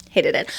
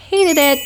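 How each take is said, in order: First: Low, understated "Hated it"; deadpan loathing. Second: High, loud burst on "hated"; emphatic loathing. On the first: Writer closing a dramatic complaint, low understated repeat. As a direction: drop "Hated it" down low as a final verdict. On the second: Writer venting about the challenge, loud dramatic emphasis. Dramatic repeated complaint, first take. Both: Pretend.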